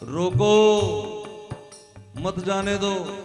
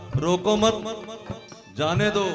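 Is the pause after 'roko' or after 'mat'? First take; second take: after roko; after mat. First: The pause comes right after 'roko'. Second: The pause comes right after 'mat'.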